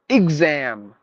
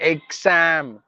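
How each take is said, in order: First: The first vowel sounds like the i in ink. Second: The first vowel sounds like the e in get. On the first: The speaker calls it right. "is like exam. I G Z A A M" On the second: The speaker calls it wrong. "Not exam"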